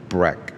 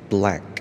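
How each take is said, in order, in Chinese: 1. 第二个辅音听起来像R音。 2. 第二个辅音是清晰的L音。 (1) "很多人会念成Black。" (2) "黑色怎么念？"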